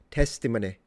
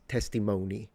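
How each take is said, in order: First: It uses an older, less common American pronunciation. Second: It uses the common modern American pronunciation. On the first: "He says testimony" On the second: "the more common in the American vernacular these days"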